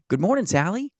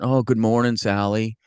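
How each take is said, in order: First: It is said in a bright, upbeat tone. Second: It is said in a gloomy, flat tone.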